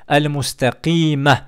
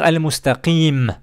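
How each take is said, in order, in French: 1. La dernière lettre est suivie d'une voyelle. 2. La dernière lettre se termine nue, sans voyelle.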